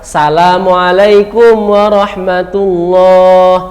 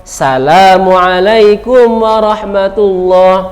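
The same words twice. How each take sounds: The two takes are said the same way.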